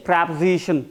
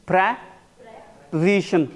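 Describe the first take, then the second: First: Said in the usual way. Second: PREPOSITION split after PRE, with a long pause; syllable by syllable. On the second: Shown as a demonstration. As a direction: say PREPOSITION in two parts, pre, then position. Teacher breaks word up for students.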